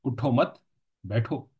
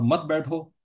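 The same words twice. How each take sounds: First: "उठो मत", a clear break, then "बैठो"; group मत with उठो, stop, then say बैठो alone; pause after मत. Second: "मत बैठो" run together, high and louder; मत बैठो joined. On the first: Teacher showing how a stop changes the command, pause after मत. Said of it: "मत के बाद आप वक्फ करेंगे". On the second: Teacher showing the opposite command, मत बैठो said as one phrase. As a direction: bind मत straight onto बैठो with no break. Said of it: "एक साथ कह देंगे". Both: Shown as a demonstration.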